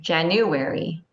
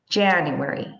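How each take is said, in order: First: The stress is on a middle syllable. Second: The stress is on the first syllable. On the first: The speaker calls it wrong. "if you stress it in the middle, it sounds weird" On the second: The speaker calls it right. "any formal name is stressed in the beginning"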